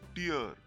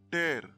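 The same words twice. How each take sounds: First: The vowel sounds like 'ear'. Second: The vowel sounds like 'air'. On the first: A drop of water from the eye. "drops of water coming out of our eyes" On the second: To separate by force. "it means to separate by force"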